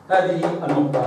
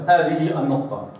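Both takes have the same delivery.

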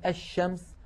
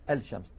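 First: الشمس said ash-shams, doubled sh; assimilated lam. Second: الشمس said al-shams, with audible l; pronounced lam. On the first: Teacher showing the sun lam, الشمس as ash-shams. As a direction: drop the l in الشمس, hold the sh. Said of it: "وندغم اللام فيه". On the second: Teacher showing the error, الشمس as al-shams. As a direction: sound the l before sh in الشمس. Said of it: "نقول الشمس". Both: Shown as a demonstration.

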